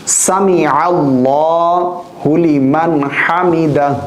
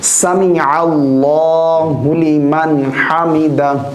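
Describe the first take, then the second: No difference in how they are said.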